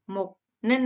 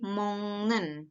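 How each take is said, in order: First: Said in the usual way. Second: "mongnen" with the k turned into ng; nasal assimilation, "mongnen" for moknen; nasalised pronunciation. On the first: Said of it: "menjadi mongnen". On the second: Shown as a demonstration. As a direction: say "mongnen" slowly, ng before n.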